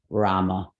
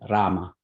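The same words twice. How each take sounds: First: The R is said without a trill. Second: The R is said with a trill. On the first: The speaker calls it wrong. "It's not Rama" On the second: The speaker calls it right. "The Sanskrit R sounds more like a Spanish R. It's like a trill sound"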